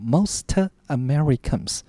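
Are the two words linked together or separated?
separated. The two words are said as separate units. The speaker calls it wrong. "千万不要念成像两个字叫做Most Americans，那就很不好听了"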